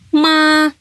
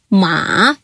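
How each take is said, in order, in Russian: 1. Тон держится высоким и ровным. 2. Тон опускается низко, потом поднимается. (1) "Мелодия первого тона высокая и ровная" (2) "Третий тон имеет нисходящую-восходящую форму"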